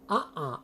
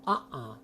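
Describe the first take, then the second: Both takes have the same delivery.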